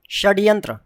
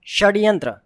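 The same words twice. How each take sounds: The two takes are said the same way.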